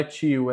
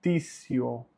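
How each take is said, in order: First: "tio" said CHEE-oo; Portuguese-style TI. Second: "tissio" said TSEE-oh; TI as tsi. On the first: Teacher showing the form to avoid, ch sound. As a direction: soften the T of "tio" to ch. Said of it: "não é tio". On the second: Teacher correcting learners, TI said as tsi. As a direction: open "tissio" on ts, not ch. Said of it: "fica T S I mais vogal". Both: Shown as a demonstration.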